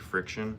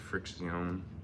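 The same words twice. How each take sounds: First: It sounds like the ordinary word friction. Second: It sounds different from the ordinary word friction. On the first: The speaker calls it right. "like friction" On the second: The speaker calls it wrong. "not friction"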